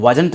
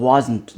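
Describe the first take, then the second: First: Wasn't with a full second vowel, "waa-junt"; wrong pronunciation. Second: Wasn't smooth, second vowel swallowed, "WAAZ-nt"; correct pronunciation. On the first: English teacher warning learners off it, wrong full-vowel wasn't. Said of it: "wasn't नहीं". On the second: English teacher correcting learners, smooth wasn't. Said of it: "wasn't नहीं, wasn't". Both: Shown as a demonstration.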